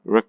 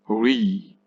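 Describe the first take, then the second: First: Re clipped to a weak, very short ruh; unstressed syllable. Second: Re as a full, long REE; stressed syllable. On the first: Teacher showing the unstressed syllable, re weak and fast. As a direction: toss off re fast with a reduced vowel. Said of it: "pronounced weak and fast". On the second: Teacher showing the wrong stressed form, re long and clear. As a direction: draw re out clearly with an ee vowel. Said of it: "Re is the stressed form". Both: Shown as a demonstration.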